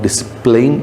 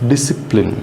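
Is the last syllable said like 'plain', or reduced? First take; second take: plain; reduced. First: The last syllable sounds like 'plain'. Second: The last syllable is short and reduced. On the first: The speaker calls it wrong. "this is not discipline ... not plain, plain is wrong" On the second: The speaker calls it right. "this is the exact word should pronounce as discipline"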